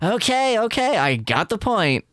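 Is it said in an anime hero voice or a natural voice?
anime hero. It is said in a shonen anime hero voice.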